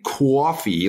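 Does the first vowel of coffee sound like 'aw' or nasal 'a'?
aw. The first vowel is a rounded 'aw' sound. "like they might say in New York or Boston"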